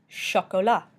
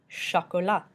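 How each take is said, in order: The two takes are said the same way.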